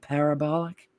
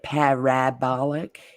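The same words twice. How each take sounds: First: The vowel after 'par' is a vague 'uh' sound. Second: The vowel after 'par' is a full, clear vowel. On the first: The speaker calls it right. "We say parab- parabolic" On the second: The speaker calls it wrong. "We don't say parabolic"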